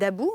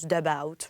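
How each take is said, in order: First: The name is pronounced with a French sound. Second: The name is pronounced with an English sound. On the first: The speaker calls it right. "on va le prononcer à la française" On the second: The speaker calls it wrong. "Je l'ai prononcé à, à, à l'anglaise"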